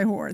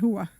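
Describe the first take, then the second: First: The word is said with a plain final r. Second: The word is said without the final r. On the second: "if anybody ever saw The Sopranos, ... they said hua"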